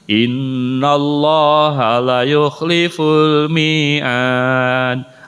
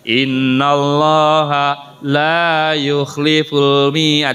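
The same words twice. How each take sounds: First: The vowel in 'la' is held short. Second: The vowel in 'la' is drawn out long. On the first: God will surely break the promise. The speaker calls it wrong. "Salahnya begini" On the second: God will never break the promise. The speaker calls it right. "La-nya harusnya dibaca ditekan panjang"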